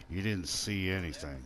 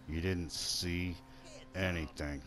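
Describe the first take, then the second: First: Said in the usual way. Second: Drawn out with a pause before "anything"; softer, slower, spelling it out; slow, deliberate. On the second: Pretend. Player to a witness of his crime, slow and deliberate. Repeat, slowed for mock menace.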